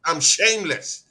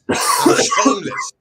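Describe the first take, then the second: First: Said in the usual way. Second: A whispered squeak, high and slow; mock squeaky voice. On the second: Taunting Chelsea Dan, a high slow whispered squeak. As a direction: squeak it out like a cartoon.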